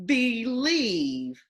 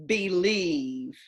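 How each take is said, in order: First: "Believe" blended smoothly, still a bit high; slid together. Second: Said in the usual way. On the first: Shown as a demonstration. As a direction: slide the sounds of "Believe" together. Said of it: "Slide it together". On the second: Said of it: "in your normal speaking voice".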